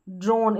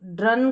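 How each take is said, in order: First: ड्रोन said with a long closed o; teacher models ड्रोन with a long o; correct long o. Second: ड्रन said with a short a vowel, the wrong way; teacher shows the mistaken ड्रन with a short a; wrong short reading. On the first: Teacher models the word for students, long o. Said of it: "इसको ड्रॉ पढ़ते हैं तो ड्रोन". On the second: Teacher warns students, short wrong vowel. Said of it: "ड्रन करके नहीं पढ़ना है". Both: Shown as a demonstration.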